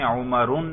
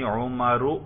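First: The name ends with an added n sound. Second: The name ends without an added n sound. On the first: The speaker calls it wrong. "عمرون نہیں کہنا" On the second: The speaker calls it right. "تنوین نہیں ہے"

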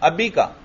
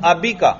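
First: The vowel after the b is short. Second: The vowel after the b is short.

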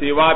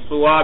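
First: The first vowel is an 'i' sound. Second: The first vowel is a 'u' sound. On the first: "بکسر سین" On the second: "بضم سین"

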